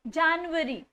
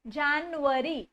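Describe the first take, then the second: First: The word ends with a 'yuary' sound. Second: The word ends with a 'yuary' sound.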